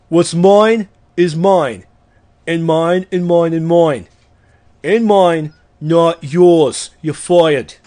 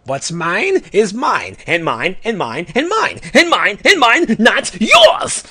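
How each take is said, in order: First: Slow, emphatic reading, a bit louder, lightly done; Donald Trump. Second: Hoard every word like treasure, rising to a yell; greedy Orange Lantern. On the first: Retold or imitated. Podcaster reciting the greedy oath as a mild boastful tycoon. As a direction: lean on each mine like a boastful tycoon. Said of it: "Now do a Donald Trump impression". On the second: Acted. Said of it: "here is the orange lantern oath real fast".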